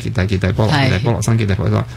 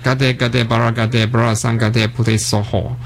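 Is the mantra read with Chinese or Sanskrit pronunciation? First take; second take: Chinese; Sanskrit. First: The mantra is read with Chinese character pronunciation. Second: The mantra is read with Sanskrit pronunciation. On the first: "头先我就读翻中文啦" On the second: "咁就系嗰个梵文嗰个读音"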